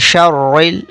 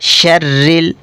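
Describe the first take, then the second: First: The r sound is heavy and thick. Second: The r sound is light and thin. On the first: The speaker calls it wrong. "रा को कुछ लोग पुर करके पढ़ते हैं" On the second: The speaker calls it right. "रा को बिल्कुल बारीक पढ़ेंगे"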